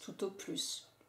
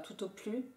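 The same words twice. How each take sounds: First: The final S of plus is pronounced. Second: The final S of plus is silent. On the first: This is the more common everyday form. "j'ai prononcé le S" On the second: This is a somewhat more formal register. "est-ce que ça peut marcher si je ne prononce pas?"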